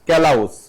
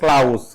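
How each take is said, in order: First: An extra vowel splits the opening k-l. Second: One syllable with an ow vowel. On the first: "এগুলি করা যাবে না" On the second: "এগুলি করা যাবে না"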